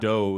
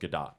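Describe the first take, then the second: First: The name is given a French-style pronunciation. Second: The name is given its Israeli pronunciation. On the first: The speaker calls it wrong. "whatever the French pronunciation" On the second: The speaker calls it right. "since she's Israeli, it's pronounced Gadot"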